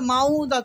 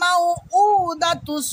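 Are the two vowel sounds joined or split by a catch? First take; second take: joined; split. First: The vowels run together with no break. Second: The vowels are split by a sharp catch. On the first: The speaker calls it wrong. "অনেকে মাউদাতু বলে" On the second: The speaker calls it right. "মাউ উ, আলাদা আলাদা করতে হবে"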